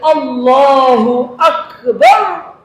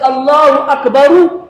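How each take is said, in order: First: It ends on a bare r consonant. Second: It ends with an added u vowel. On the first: The speaker calls it right. "Le Ra, ça sort. Le soukoun" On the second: The speaker calls it wrong. "Sinon, c'est Allahu Akbaru"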